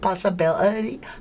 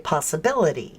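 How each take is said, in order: First: It imitates the guest's accent, split into syllables. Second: It is said in a plain American accent.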